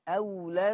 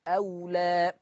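First: The word runs on without a final long vowel. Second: The word ends with a long final vowel. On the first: The word is joined to the next word. "إذا ما في ألف حال الوصل" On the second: The reciter stops on this word. "إنما الألف متى تثبت؟ حال الوقف"

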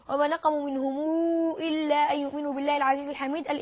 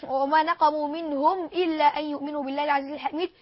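No difference in how they are said.

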